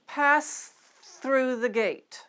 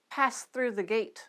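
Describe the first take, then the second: First: The phrase is said slowly. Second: The phrase is said at normal speed. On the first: "Start slowly" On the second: "Now let's get it up to normal speed"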